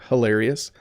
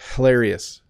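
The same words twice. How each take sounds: First: The word is said at a natural pace. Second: Every sound of the word is exaggerated.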